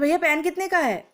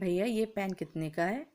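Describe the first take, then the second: First: It is spoken suddenly and very loudly. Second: It is spoken at a calm, moderate volume. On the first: The listener is startled and cannot follow. The speaker calls it wrong. "एकदम से इतनी तेज बोल रहे" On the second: A polite, appropriate way to ask. The speaker calls it right. "तो आप उससे ऐसे बोलेंगे"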